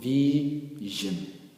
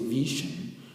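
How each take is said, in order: First: The middle consonant is a voiced 'zh' sound. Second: The middle consonant is a voiceless 'sh' sound. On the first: The speaker calls it right. "we will call it vision" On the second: The speaker calls it wrong. "we will not say vision"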